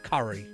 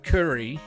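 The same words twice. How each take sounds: First: It is said in a West Country accent. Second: It is said in a standard accent.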